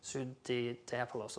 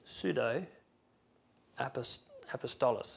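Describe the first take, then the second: First: The word is said as pseudo apolos. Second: The word is said as pseudo apostolos. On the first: The speaker calls it right. "In the pronunciation, it says pseudo-apolos or something like that" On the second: The speaker calls it wrong. "you don't pronounce it like that, apparently"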